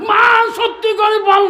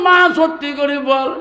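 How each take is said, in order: First: "মা সত্যি করে বল" shouted high and loud; shouting demand. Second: Said in the usual way. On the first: Acted. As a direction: hurl the demand at her, much higher and louder. Son demands truth from mother.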